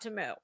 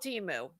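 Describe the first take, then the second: First: The first syllable sounds like 'tuh'. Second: The first syllable sounds like 'tee'. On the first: This is the pronunciation used by the company. The speaker calls it wrong. "not Tamu. Tamu just sounds like something with cows" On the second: This is the pronunciation used by local customers. The speaker calls it right. "it is non-negotiable that it will be called Timu"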